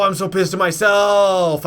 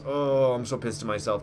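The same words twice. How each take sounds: First: "pissed" yelled loud and high, slowed down; self-directed angry yell; real angry shout. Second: Said in the usual way. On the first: Real, not acted. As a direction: shout it at yourself in real rage.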